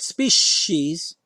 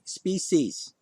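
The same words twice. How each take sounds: First: The middle consonant is an sh sound. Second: The middle consonant is a plain s sound. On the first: The speaker calls it wrong. "not species" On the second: The speaker calls it right. "there's no sh in that word"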